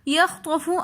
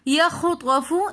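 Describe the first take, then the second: First: The kh sound is held without a vowel. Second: The kh sound is given a short vowel. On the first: The speaker calls it right. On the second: The speaker calls it wrong.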